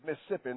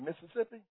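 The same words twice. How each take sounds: First: It is said in the local Mississippi pronunciation. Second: It is said in an outsider's pronunciation. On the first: The speaker is a native of the state. The speaker calls it right. "excuse my Mississippiism. It is Mississippi" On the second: The speaker is a foreigner to the state. The speaker calls it wrong. "they say Mississippi. We call them foreigners"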